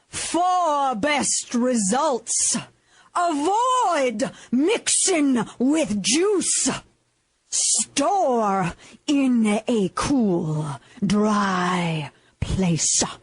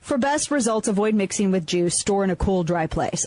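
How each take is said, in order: First: It is delivered with fiery, preacher-like energy. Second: It is read in a flat, plain voice. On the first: The speaker calls it right. "Southern Baptist preacher speaking technique" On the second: The speaker calls it wrong. "well that sounds boring"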